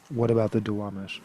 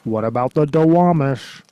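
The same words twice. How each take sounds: First: It is said in the speaker's own normal voice. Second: It is said in a put-on cartoon character voice. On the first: "But for real though" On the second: "I said it like Lenny from The Simpsons"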